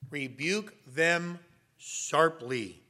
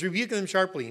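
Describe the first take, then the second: First: "rebuke them sharply" drawn out slowly, each word weighted; slow, stern emphasis. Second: Said in the usual way. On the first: Shown as a demonstration. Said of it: "the word rebuke means to correct sternly". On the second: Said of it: "He says".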